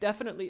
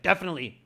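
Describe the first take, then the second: First: It sounds nervous and unsure. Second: It sounds grumpy and annoyed. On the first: "Don't don't sound nervous. Like don't be like" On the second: "Don't be grumpy. Don't be like"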